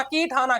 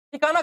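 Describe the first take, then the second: First: कीठाना said with a long kee and aspirated th, kee-THAA-naa; corrected name. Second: ठिकाना said with a plain t sound first, as the word for place; starts the name as ठिकाना, ti-KAA-naa; slip of the tongue. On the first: Quiz teacher corrects himself to the village name कीठाना. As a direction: fix the name to कीठाना, firmly. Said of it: "ठिकाना गांव, कीठाना". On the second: Quiz teacher misreads the village name as ठिकाना. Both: Real, not acted.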